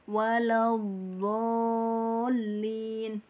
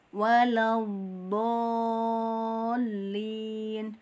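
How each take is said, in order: The two takes are said the same way.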